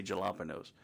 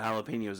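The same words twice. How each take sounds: First: "jalapenos" with a hard English j, juh-LAP-uh-nos; deliberate mispronunciation. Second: Said in the usual way. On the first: Retold or imitated. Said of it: "they would always say". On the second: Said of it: "speaking of words mispronounced on purpose".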